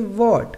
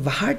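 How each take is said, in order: First: No h sound is heard before the w. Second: An h sound is heard before the w. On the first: The speaker calls it right. "W के बाद H का उच्चारण नहीं होता" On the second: The speaker calls it wrong. "अब यहाँ पे हम इसे वाट नहीं पढ़ेंगे"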